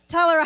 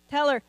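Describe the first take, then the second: First: Higher, louder call, pressing harder. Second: Firm raised call to a congregant; urging her to speak up. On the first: Pastor pressing a shy congregant, calling out higher and louder. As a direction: push her to answer now, full voice. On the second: Pastor calling across the room, firm and raised. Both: Real, not acted.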